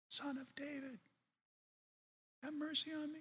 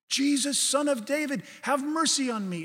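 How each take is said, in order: First: It is said in a small, quiet voice. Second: It is said in a louder voice.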